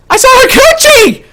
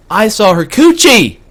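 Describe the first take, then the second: First: Very high, loud comic scream; shrieked reveal. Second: Drawn-out, raised reveal of COOCHIE; emphatic reveal. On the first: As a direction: scream it out in shocked disbelief. Screams the punchline over again. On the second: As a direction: land slowly on "coochie!" with a raised pitch. Reveals the story's punchline. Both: Retold or imitated.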